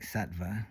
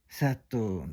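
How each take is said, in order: First: It ends with a tva cluster. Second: It ends in a plain o with no v sound. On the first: This is the original Sanskrit form. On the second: This is how Tibetan practitioners say it.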